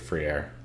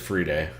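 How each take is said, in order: First: The name ends with an 'air' sound. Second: The name ends with a 'day' sound. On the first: "If you want to sound like you're from Montana, you can say free air" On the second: "pretty sure it's free day"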